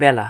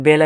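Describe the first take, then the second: First: বেলা with an open "æ", as "bæla"; correct open vowel. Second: বেলা with a close "e", as "bela"; wrong vowel. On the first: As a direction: model the spoken বেলা, first vowel as in "cat". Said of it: "আমরা বলি বেলা". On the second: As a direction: show the unused reading of বেলা, with a plain e. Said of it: "বেলা এভাবে বলি না". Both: Shown as a demonstration.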